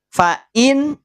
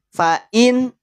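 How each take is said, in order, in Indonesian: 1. Bunyi n-nya diucapkan dengan jelas. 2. Bunyi n-nya diucapkan dengan jelas.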